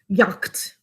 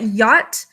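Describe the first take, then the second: First: It is said with a k sound before t. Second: It is said without any k sound.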